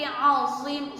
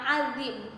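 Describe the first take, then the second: First: The z sound is emphatic and heavy. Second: The z sound is plain and light. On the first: The speaker calls it right. "tapi azim, za" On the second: The speaker calls it wrong.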